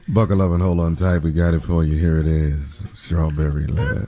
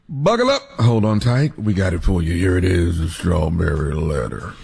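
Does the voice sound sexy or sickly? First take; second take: sexy; sickly. First: The voice sounds smooth and sexy. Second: The voice sounds weak and half sick.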